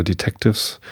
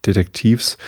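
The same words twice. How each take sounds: First: "Detectives" said the English way; English pronunciation. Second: "Detektivs" said the German way; German pronunciation. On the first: Reader correcting a word to the English reading, "Detectives" in English pronunciation. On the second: Reader trying the German reading of a word, "Detektivs" in German pronunciation. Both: Shown as a demonstration. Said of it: "sieht aus wie Deutsch".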